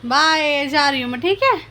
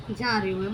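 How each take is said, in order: First: Higher, louder playful coo. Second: Said in the usual way. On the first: Real, not acted. Mother pretends to leave her giggling baby, in higher, louder baby talk. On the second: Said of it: "हंस रही हो ऐसे तो".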